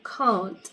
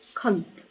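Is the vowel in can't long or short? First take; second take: long; short. First: The vowel is a long 'ah' sound. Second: The vowel is short, not prolonged. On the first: The speaker calls it right. "You prolong the ah sound, so can't" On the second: The speaker calls it wrong. "not can't"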